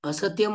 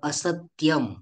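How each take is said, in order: First: The t sound is said lightly, without extra force. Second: The t sound is pressed with extra force. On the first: The speaker calls it wrong. "असत्यम म्हणतो का आपण? नाही म्हणत" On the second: The speaker calls it right. "तर असत्यम"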